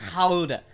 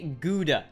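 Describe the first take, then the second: First: The word starts with a throaty, breathy sound. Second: The word starts with a hard G sound. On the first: It is the original foreign pronunciation. "No one in the United States of America says Gouda" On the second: It is the usual American pronunciation. "They say Gouda because there's a G"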